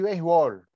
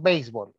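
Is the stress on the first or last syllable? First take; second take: last; first. First: The stress is on the last syllable. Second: The stress is on the first syllable.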